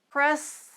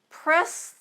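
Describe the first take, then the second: The two takes are said the same way.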